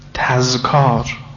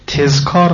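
First: The first syllable has the vowel a. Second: The first syllable has the vowel e. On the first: The speaker calls it right. "سیاق این وزن تفعال نه تفعال" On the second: The speaker calls it wrong. "تذکار غلطه"

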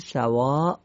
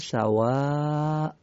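First: The word ends short with no lengthened vowel. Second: The word ends with a lengthened 'aa' vowel. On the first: The speaker calls it wrong. "در وقف میگیم سواء یا سواء" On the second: The speaker calls it right. "قطعا دومی درسته"

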